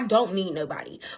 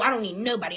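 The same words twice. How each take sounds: First: It is said in a calm, sincere tone. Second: It is said in a bitter, dismissive tone. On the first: Joy comes from within oneself. The speaker calls it right. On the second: Everybody should leave me alone. The speaker calls it wrong.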